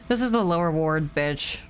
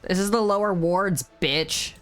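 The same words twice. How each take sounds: First: The last word is sighed without emphasis. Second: The last word is said with emphasis.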